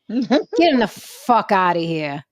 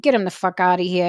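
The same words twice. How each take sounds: First: It is said in a put-on announcer voice. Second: It is said in a normal speaking voice.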